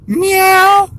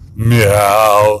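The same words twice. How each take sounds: First: It is a little cat voice, like Levi. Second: It is a Papa Cat voice.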